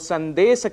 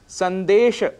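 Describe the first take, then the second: First: The word ends with an s sound. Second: The word ends with an sh sound. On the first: The speaker calls it wrong. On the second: The speaker calls it right.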